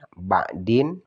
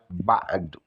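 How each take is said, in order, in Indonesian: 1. Kata ini berakhir dengan bunyi -in. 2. Kata ini berakhir dengan bunyi vokal u pendek.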